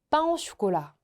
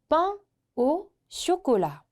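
First: It is said quickly with syllables run together. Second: It is said slowly with every syllable clear.

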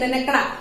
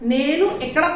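First: The first word is shortened to 'nen'. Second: The first word is said in full, 'nenu'. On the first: The speaker sounds like a fluent expert. The speaker calls it right. "एकदम बिल्कुल expert जैसे बातें करना है तो क्या बोलेंगे" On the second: The speaker is a beginner still learning. The speaker calls it wrong. "नेनू एकड़ा कोई नहीं बोलता"

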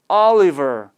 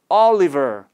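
No difference in how they are said.

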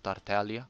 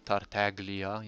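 First: The G sound is left silent. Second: The G sound is clearly pronounced. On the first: The speaker calls it wrong. "instead of" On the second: The speaker calls it right. "they actually pronounce the G"

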